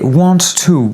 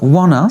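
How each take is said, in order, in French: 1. Les mots sont prononcés en entier, avec un son t. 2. Les mots sont enchaînés sans son t.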